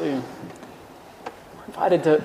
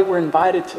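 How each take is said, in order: First: We're invited to drawn out, very slow and soft; slow hushed emphasis. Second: Said in the usual way. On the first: Shown as a demonstration. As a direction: linger on invited, let it sink in quietly.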